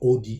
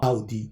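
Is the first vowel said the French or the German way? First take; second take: French; German. First: The first vowel is said the French way. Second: The first vowel is said the German way. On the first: The speaker calls it wrong. "non pas Audi" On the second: The speaker calls it right. "ça se prononce Au en allemand"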